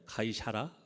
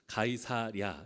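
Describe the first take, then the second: First: The name is said as 'ga-i-sya-ra'. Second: The name is said as 'ga-i-sa-rya'. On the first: "발음이 이 사하고 랴가 바뀌는 때가 많아요" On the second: "기록된 대로는 가이사랴예요"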